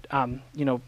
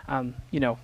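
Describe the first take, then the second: No difference in how they are said.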